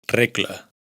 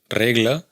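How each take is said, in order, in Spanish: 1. La consonante antes de la L es doble, suena sorda. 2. La consonante antes de la L es simple y sonora. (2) "No es"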